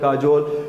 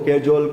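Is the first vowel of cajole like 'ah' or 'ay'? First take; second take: ah; ay. First: The first vowel sounds like 'ah'. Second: The first vowel sounds like 'ay'. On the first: "કાજોલ એવું પણ બોલી શકો" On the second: "કેજોલ અથવા તો કાજોલ પણ તમે બોલી શકો"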